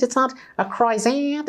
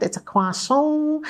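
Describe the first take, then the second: First: High mock-American voice, "croissant" with an anglicised "kroy-zant". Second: "croissant" as French "kwa-son", very high and drawn out; slow, gushing attempt at French "croissant", "kwah-SOHN"; mock French croissant. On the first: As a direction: say "croissant" as a naive American would, "CROY-zant", pitched high. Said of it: "Americans being trusting creatures".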